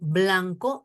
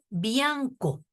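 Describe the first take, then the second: First: The word begins with a clear 'bl' cluster. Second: The 'l' is replaced, giving a 'bi' sound. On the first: The speaker calls it right. "En vez de decir blanco" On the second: The speaker calls it wrong. "dice bianco"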